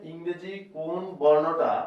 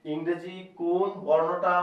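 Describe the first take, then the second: No difference in how they are said.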